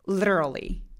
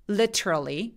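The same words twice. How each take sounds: First: The middle t is a quick flap. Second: The middle t is plain, not flapped. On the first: "이게 전부 다 플랩 소리들이에요" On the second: "플랩은 완벽하게 하지 않아도 되기는 해요"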